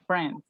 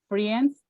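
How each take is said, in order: First: The E is silent, one smooth syllable. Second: The E is sounded as a separate vowel. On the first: The speaker calls it right. "the E doesn't sound" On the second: The speaker calls it wrong. "Don't say friends with the, the E doesn't sound"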